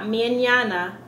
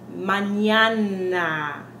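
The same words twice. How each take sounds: First: The A vowels are weak and reduced. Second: The A vowels are full, clear ah sounds. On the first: The speaker calls it wrong. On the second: The speaker calls it right.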